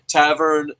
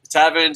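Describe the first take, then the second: First: Tavern said with a clear r, as "Tav-ern"; the slip before the fix, Tavern with the r; mispronounced name. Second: Tavern said without the r, as "Tav-en"; corrected name. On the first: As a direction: Tavern pronounced wrongly with an r sound. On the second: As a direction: fix it: Tavern sounds like "Taven". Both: Real, not acted. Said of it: "sorry about that".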